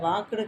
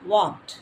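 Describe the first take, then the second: First: The ending is said as an extra 'du' syllable. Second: The word ends in a short clipped t sound. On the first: The speaker calls it wrong. "அது வாக்குடு கிடையாது" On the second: The speaker calls it right.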